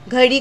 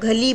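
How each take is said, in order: First: The middle consonant is a flapped 'r'. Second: The middle consonant is an 'l'.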